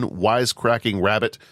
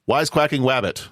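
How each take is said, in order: First: Rabbit begins with a normal r sound. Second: Rabbit begins with a w sound instead.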